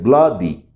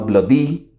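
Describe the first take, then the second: First: The stress is on the first syllable. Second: The stress is on the second syllable. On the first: The speaker calls it right. "¿cuál es el fuerte? Blood, porque es bloody" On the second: The speaker calls it wrong. "no bloody"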